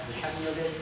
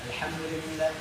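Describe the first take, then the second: The two takes are said the same way.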